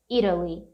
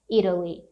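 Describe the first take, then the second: No difference in how they are said.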